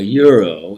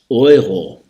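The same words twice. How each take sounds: First: The word begins with a 'you' sound. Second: The word begins with an 'oy' sound. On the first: "we call a euro in English" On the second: "the E U combination is an oi"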